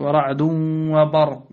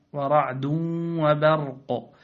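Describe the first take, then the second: First: "وبرق" said loudly with dark a after b; wrongly heavy ba. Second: Slow "وبرق", thin b vowel and bounced final ق; light ba. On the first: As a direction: thicken the ba of "وبرق". (تفخيم باء "وبرق") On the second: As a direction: keep "وبرق" light, drawn out. (ترقيق باء "وبرق") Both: Shown as a demonstration. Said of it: "لا".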